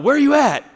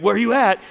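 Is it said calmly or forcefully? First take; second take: forcefully; calmly. First: It is said forcefully, with an intense tone. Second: It is said in a calm, ordinary way.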